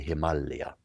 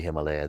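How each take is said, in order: First: It is said the way Indians say it. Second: It is said the usual non-Indian way. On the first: The speaker calls it right. "they say Himalaya. It's the proper way of pronouncing it" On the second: The speaker calls it wrong. "In India, they don't say Himalaya"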